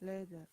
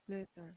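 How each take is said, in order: Both takes have the same delivery.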